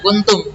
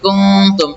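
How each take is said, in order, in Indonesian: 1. Huruf n diucapkan dengan jelas tanpa menyembunyikan sengau. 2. Huruf n disembunyikan dengan dengung sengau. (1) "tidak baca kuntum" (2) "tapi kuntum ikhfa hakiki"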